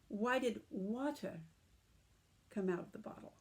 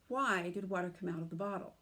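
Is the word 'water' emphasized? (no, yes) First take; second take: yes; no. First: The word water carries strong emphasis. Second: The word water carries no special emphasis. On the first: It asks why this liquid and no other came out. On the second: It asks what caused the spill.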